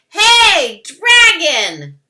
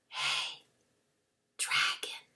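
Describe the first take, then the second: First: It is shouted very loudly. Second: It is whispered very softly.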